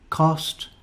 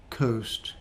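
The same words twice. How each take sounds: First: "Cost" with a short, open /ɒ/ as in hot; short o vowel. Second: "coast" with the gliding /əʊ/ as in go; long o diphthong. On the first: Teacher modelling minimal pairs for learners, careful short o. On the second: Teacher modelling minimal pairs for learners, careful long o. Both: Shown as a demonstration. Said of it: "practice these sounds and spellings".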